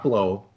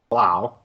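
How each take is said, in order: First: The vowel rhymes with 'go'. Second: The vowel rhymes with 'cow'. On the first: The speaker calls it wrong. "not Blow" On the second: The speaker calls it right. "I looked up his name to make sure we pronounce it right"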